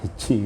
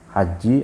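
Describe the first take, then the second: First: The first vowel is an 'i' sound. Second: The first vowel is an 'a' sound. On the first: "bisa dibaca kasroh juga hiji" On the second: "dibaca fathah"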